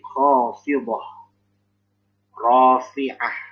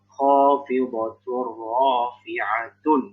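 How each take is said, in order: First: The words end in a soft h sound. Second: The words end in -tun, linked together. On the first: The reader stops at this point. "kalau misalnya berhenti" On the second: The reading continues without stopping. "kalau di wasol atau disambung"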